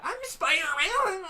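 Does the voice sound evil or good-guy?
good-guy. A good-guy voice that goes up and down.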